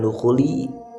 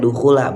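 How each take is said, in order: First: The word ends with an 'i' vowel. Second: The word ends with an 'a' vowel. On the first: The speaker calls it wrong. "bukan dukhuli" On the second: The speaker calls it right. "membacanya dukhula"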